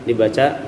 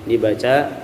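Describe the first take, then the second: The two takes are said the same way.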